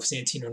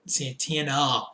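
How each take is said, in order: First: Santino with an "ee" in the middle; fumbled name, "Santino"; mispronounced name. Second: Said in the usual way. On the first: Real, not acted. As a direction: slip and say "Santino", ending in "-eeno". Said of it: "I am drunk". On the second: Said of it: "What is wrong with me?".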